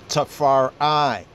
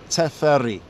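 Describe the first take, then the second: First: The name has an English-influenced pronunciation. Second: The name has an Ethiopian pronunciation. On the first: "We say over here because of the English pointing" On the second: "In the Ethiopian enunciation"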